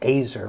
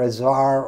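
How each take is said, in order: First: The name is said to rhyme with 'laser'. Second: The name is said not rhyming with 'laser'. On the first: This is how the man says his own name. "actually pronounces his name Azar, rhyming with laser" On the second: This is how most people say the name. "most people call him Azar"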